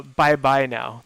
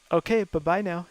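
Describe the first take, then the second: First: Slow, louder drawn-out bye bye now; SNL catchphrase. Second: Lightly voiced okay, bye-bye now; a hint of the skit's sing-song bye-bye; David Spade catchphrase. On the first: Retold or imitated. Recalling an SNL skit to friends, slow drawn catchphrase. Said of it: "The S N L skit". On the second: Naming David Spade's skit, light catchphrase impression. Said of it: "David Spade did that one".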